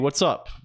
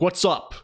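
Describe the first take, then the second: First: It is said in a relaxed, casual way. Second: It is said in a forceful, aggressive way. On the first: "they call this default form, casual form" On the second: "You could say it really aggressively"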